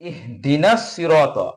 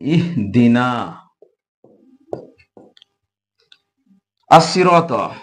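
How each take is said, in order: First: The two words are joined together. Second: The two words are said separately.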